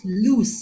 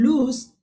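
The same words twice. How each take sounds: First: "loose" with a long voiceless s; LOOSE pronunciation. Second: "loose" said as "looz", with z at the end; LOSE pronunciation. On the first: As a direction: end "loose" on a hissed s. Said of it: "O O S E is pronounced". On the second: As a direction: voice the final sound of "loose" like lose. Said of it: "L O S E is pronounced". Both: Shown as a demonstration.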